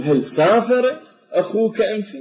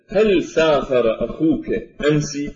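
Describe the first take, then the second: First: سافر raised and stressed; teacher shifts the stress onto سافر to ask about travel. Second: Said in the usual way. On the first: Shown as a demonstration. نبر على كلمة سافر. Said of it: "فأرفع صوتي في كلمة سافر". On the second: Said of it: "أريد أن أقول أسأل أحدهم".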